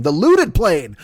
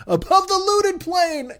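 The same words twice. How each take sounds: First: Said in the usual way. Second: "above the looted plain" sung slow and much higher; sung, belt "looted plain" like the anthem's big finish; sung anthem line. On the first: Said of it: "I'm great at this". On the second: Pretend. Comic singing the punning anthem line high and slow. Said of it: "God damn, I'm great at this".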